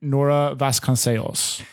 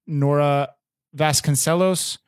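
First: Nora Vasconcelos in a Portuguese accent, -SAY-os; Portuguese pronunciation. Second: Nora Vasconcelos in an American accent, -SELL-ohs; American pronunciation. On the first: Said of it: "in proper Portuguese accent". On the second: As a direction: Vasconcelos the English way, ending -los. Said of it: "like, an American accent". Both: Shown as a demonstration.

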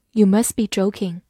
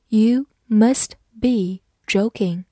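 First: Said in the usual way. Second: Slow, each word set apart; slow reading. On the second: Shown as a demonstration. Teacher models the sentence for learners, slow reading.

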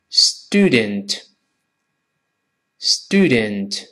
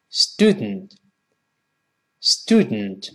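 First: Student slowly, both syllables full; slow reading. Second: Student as "stood-nt", second vowel swallowed; lower, softened student released through the nose; quicker, nasal plosion. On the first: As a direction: draw out "stoo-dent" for learners. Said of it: "先慢慢读". (慢读 student) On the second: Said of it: "读快点儿". (student 读快，鼻腔爆破) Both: Shown as a demonstration.

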